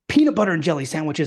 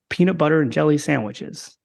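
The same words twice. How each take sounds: First: It is said lively with high energy. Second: It is said flatly with low energy. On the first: The speaker calls it right. "So you have to be, hey" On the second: The speaker calls it wrong. "You don't want to listen to that. It's boring"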